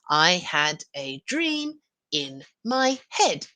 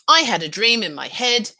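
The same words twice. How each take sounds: First: The sentence is read slowly. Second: The sentence is read at normal speed. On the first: Listeners get time to write every word. "I read slowly" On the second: Listeners can only note the key words. "a dictation that we read at normal speed"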